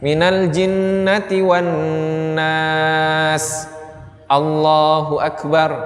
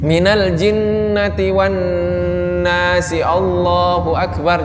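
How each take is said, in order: First: A short pause separates the two phrases. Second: The two phrases are joined without a pause.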